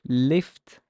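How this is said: It is said with an Arabic vowel and L. "but in Arabic it's lift"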